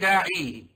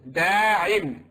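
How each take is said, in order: First: The word ends in a long 'ee' vowel. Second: The word ends in a short 'in' sound. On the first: The speaker calls it wrong. "You don't say da'i" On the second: The speaker calls it right. "I met a da'in"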